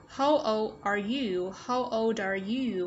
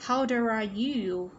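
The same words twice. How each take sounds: First: Put-on slow "how old are you", word by word; stretched teacher's model of "how old are you"; careful model question. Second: Put-on "How old are you" with the D of "old" joined onto "are"; slowish, connected model of "How old are you"; linked sounds. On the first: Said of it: "Đây chúng ta sẽ nối âm". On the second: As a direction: say "old are" as one word, "ol-dare". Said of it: "phụ âm kết thúc của từ đằng trước sẽ nối với nguyên âm". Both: Shown as a demonstration.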